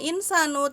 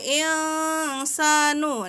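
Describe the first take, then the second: First: The n sound is pronounced clearly and distinctly. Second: The n sound is hidden, blurred into nasality. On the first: The speaker calls it wrong. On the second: The speaker calls it right. "insanu itu juga dibaca samar bukan jelas"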